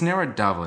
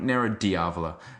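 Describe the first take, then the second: First: The second word begins with a single 'dah' sound. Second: The second word begins with a 'dee-ah' sound. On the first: The speaker calls it right. "it's Nero d'Avola" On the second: The speaker calls it wrong. "not Nero Diavola. Please don't"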